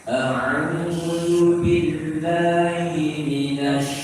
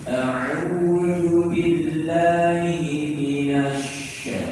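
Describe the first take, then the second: No difference in how they are said.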